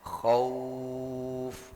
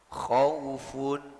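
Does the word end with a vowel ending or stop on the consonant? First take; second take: consonant; vowel ending. First: The word stops on the final consonant. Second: The word ends with the full -un ending. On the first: The reader stops at this word. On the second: The reader continues without stopping.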